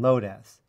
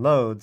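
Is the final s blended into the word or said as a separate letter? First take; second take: separate letter; blended. First: The final s is spoken as a separate letter. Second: The final s blends into one syllable. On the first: "I've called it dumpas and loadas ... that S is for string" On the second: "Instead of calling this dumps and loads"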